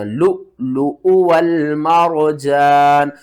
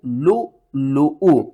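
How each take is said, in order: First: Slow recited लु, लु उ वल मरजान; Quran recitation. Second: लु, लु उ with a sharp catch before उ; glottal catch. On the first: Teacher recites the full phrase correctly for students. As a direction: chant it drawn-out like a reciter. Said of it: "यहाँ पर झटका आपने नहीं देना।". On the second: Teacher shows the catch on the hamza, slowly. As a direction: break cleanly into उ. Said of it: "यहाँ पर झटका होगा". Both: Shown as a demonstration.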